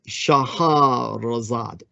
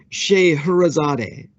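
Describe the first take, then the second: First: The name is said in an Arabic way. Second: The name is said in an anglicized way. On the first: This is the original form of the name. "her real name would be" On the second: This is the form known in the West. "is remembered in the West as"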